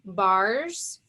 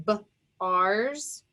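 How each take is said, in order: First: Said in the usual way. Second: "B, R's" as two separate sounds with a gap; a short "B", pause, then "R's"; sounded out. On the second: Shown as a demonstration. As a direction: phonics breakdown "B, R's". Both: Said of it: "Remember, A R says R".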